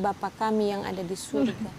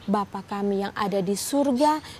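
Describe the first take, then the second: First: It is rattled off quickly without pauses. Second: It is said slowly, word by word. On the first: It is said out of habit without attention. The speaker calls it wrong. "sama dengan minum air" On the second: Each word is said with attention to its meaning. The speaker calls it right. "mengucapkan kata demi kata"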